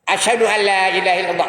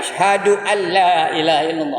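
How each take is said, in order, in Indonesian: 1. Bunyinya diucapkan longgar dan kabur. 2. Bunyinya diucapkan dengan hati-hati dan jelas. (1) "Kadang-kadang tak betul mengucapnya" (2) "Patutnya asyhadu alla"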